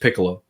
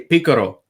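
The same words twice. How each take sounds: First: It is said in the speaker's plain accent. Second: It is said in a thick Cuban accent.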